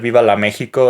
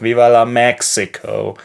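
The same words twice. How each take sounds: First: Mexico is pronounced the Spanish way. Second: Mexico is pronounced the English way. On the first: This is how people in the country say it. The speaker calls it right. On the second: This is how the song says it. The speaker calls it wrong.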